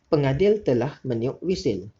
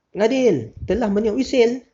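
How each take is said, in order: First: It is said calmly with a falling statement tune. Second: It is said forcefully like an exclamation. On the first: It simply reports a fact. The speaker calls it right. "Tu cara nada yang betul" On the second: It expresses strong feeling. The speaker calls it wrong. "tu pun salah juga. Tu ayat seruan"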